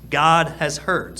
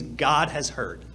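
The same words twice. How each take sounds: First: "God has heard" said slowly and louder, every word weighted; slow emphatic repeat. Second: Said in the usual way. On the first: Shown as a demonstration. Preacher driving home the meaning of Samuel, slow and emphatic. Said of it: "Samuel literally means God has heard".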